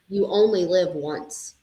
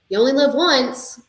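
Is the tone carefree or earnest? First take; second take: earnest; carefree. First: It is said in a serious, earnest tone. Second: It is said in a carefree, daring tone. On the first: Take care of the one life you have. "means like this is the life" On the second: Take risks and enjoy everything now. "meaning like live on the edge"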